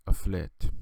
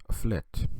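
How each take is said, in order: Both takes have the same delivery.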